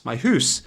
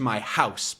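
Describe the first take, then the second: First: "hoose" with an oo vowel; Scottish pronunciation. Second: Said in the usual way. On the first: Shown as a demonstration. Teacher showing shepherd's accent, "hoose" rhyming with moose. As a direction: say "hoose" for house, Scottish-style. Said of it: "a bit of an accent". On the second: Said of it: "but he's saying".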